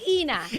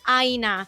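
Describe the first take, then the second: First: The name rhymes with Tina. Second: The name does not rhyme with Tina. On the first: The speaker calls it right. "it's Ina. Rhymes with Tina" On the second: The speaker calls it wrong. "it's so hard to get people to stop calling me Aina"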